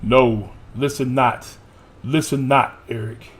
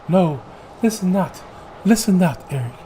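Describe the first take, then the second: First: It is said in a male voice. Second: It is said in a female voice.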